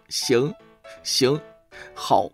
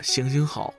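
First: The syllables are split by pauses into short replies. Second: The three syllables run together as one plea. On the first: It is a string of compliant agreements. "打工人工作的时候是这样的" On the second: It is a plea for mercy. "乞丐工作的时候是这样的"

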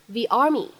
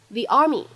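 No difference in how they are said.

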